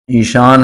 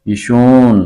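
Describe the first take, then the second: First: ईशान with long aa before n; written-form pronunciation. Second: ईशून with oo in place of aa; colloquial pronunciation. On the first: Teacher asking for the spoken form, written pronunciation. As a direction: keep the open aa in ईशान. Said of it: "असल में नविश्तारी". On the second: Teacher giving the spoken answer, colloquial pronunciation. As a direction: turn the last vowel of ईशून to oo. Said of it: "तो क्या बोल देंगे". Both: Shown as a demonstration.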